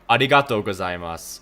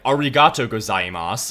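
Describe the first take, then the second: First: The r is a light, L-like tongue sound. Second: The r is a hard American-style r. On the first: The speaker calls it right. "and it's arigato gozaimasu" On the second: The speaker calls it wrong. "They'll be like arigato gozaimasu"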